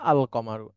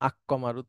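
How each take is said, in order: First: The L of the article is clearly pronounced. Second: The L merges into a doubled k sound. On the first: The speaker calls it right. "আল কমারু এভাবেই উচ্চারণ হয়" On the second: The speaker calls it wrong. "আক্কমারুটা আরো কঠিন"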